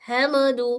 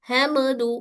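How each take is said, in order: No difference in how they are said.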